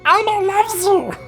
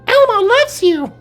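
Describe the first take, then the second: First: It is a lower-pitched Elmo impression. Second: It is a higher-pitched Elmo impression.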